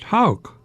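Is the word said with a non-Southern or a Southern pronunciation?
Southern. It is said with a Southern vowel. It names the bird of prey. "down here the bird we pronounced hawk"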